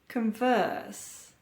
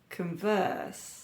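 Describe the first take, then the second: First: The stress is on the second syllable. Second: The same.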